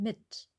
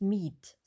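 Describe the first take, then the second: First: The vowel i is short. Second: The vowel i is long. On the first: The speaker calls it right. "sondern mit ... Kurz" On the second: The speaker calls it wrong. "Wir sagen nicht meet"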